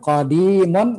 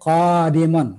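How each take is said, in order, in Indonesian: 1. Vokal pertama pendek, yang kedua panjang. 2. Vokal pertama panjang, yang kedua pendek. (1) "baca pendek qafnya dibaca panjang dalnya" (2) "qafnya panjang"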